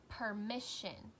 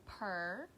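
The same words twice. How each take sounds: First: Said in the usual way. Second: "permission" as per, mi, ssion, with long gaps; chopped into syllables. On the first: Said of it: "So if I said". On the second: Shown as a demonstration. Teacher showing how to chop, "permission" in three beats. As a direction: pause after each syllable of "permission". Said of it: "I would chop it".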